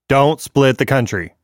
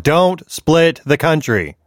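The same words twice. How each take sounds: First: It is said with normal emphasis. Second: It is said with strong emphasis.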